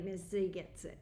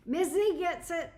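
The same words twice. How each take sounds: First: Said in the usual way. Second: Much higher, louder "Miss Z gets it"; bright excited agreement; emphatic praise. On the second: Real, not acted. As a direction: cheer her on with real enthusiasm. Emphatic repeat to the viewer.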